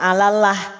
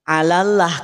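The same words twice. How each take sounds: First: The l in Allah is thin. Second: The l in Allah is thick. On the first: The speaker calls it wrong. "Kalau alallah nanti masuknya tipis" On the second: The speaker calls it right. "alallah karena dia tebal"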